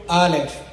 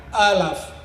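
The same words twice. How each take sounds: First: "Aleph" said ah-lef, ending on a clear e; Hebrew pronunciation. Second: "Aleph" said ah-laf, with a second a; Samaritan pronunciation. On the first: Guide showing visitors the Hebrew letter name "Aleph". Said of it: "In Hebrew". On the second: Guide showing visitors the Samaritan letter name "Aleph". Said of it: "In Samaritian". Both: Shown as a demonstration.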